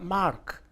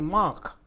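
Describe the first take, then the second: First: It is said with an American pronunciation. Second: It is said with a British pronunciation. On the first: "lo que un norteamericano diría mark" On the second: "la fonética británica tiende a velarizar ... nosotros percibimos al oído que dice mark"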